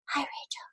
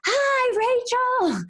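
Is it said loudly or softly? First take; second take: softly; loudly. First: It is said softly and quietly. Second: It is said loudly, almost screamed.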